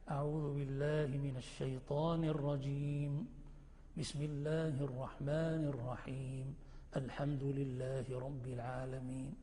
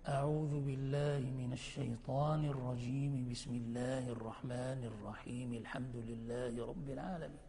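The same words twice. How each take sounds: First: There is a pause after every phrase. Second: All three phrases run together without pausing. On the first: "وتقطع الكل" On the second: "فتصل الكل"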